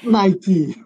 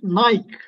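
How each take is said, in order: First: The name is said as two syllables, ending 'kee'. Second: The name is said as one syllable, like bike. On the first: This is how English speakers say the brand. "not Nike" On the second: This is how people in Turkey say the brand. "In Turkey, we all pronounce it Nike"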